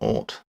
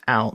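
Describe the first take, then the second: First: The vowel rhymes with 'caught'. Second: The vowel rhymes with 'cow'. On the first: The speaker calls it wrong. "not ought" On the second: The speaker calls it right. "it's pronounced out"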